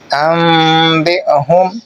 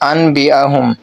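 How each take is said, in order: First: A nasalized m sound comes before the b. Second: A plain n sound comes before the b. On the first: The speaker calls it right. "नून की जगह मीम को अदा करना है गुन्ना और इख़्फ़ा के साथ" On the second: The speaker calls it wrong. "ऐसा पढ़ना दुरुस्त नहीं है"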